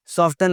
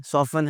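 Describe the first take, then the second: First: "सॉफ्टन" with a T after F; T sounded. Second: "सॉफन" with F straight into N; silent T. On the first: Teacher showing the mistake, T sounded. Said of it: "सॉफ्टन लफ्ज़ नहीं है". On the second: Teacher correcting learners, T left silent. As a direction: drop the T, "सॉफन". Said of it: "सॉफन है". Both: Shown as a demonstration.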